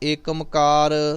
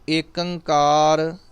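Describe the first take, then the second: First: It is said as one word, Ekamkar. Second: It is said as one word, Ekankar. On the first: "ਇਸ ਤਰ੍ਹਾਂ ਦੇ ਕੋਈ ਉਚਾਰਨ ਨਹੀਂ ਕਰਨੇ" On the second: "ਇਸ ਤਰ੍ਹਾਂ ਦੇ ਕੋਈ ਉਚਾਰਨ ਨਹੀਂ ਕਰਨੇ"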